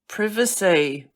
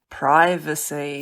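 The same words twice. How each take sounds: First: The word is said with a British accent. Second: The word is said with an American accent. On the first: "British, English" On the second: "and American"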